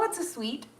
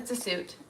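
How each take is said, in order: First: The word sounds like sweet. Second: The word sounds like suit. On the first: The speaker calls it right. "even though I know it's a suite" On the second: The speaker calls it wrong. "I always call them suits"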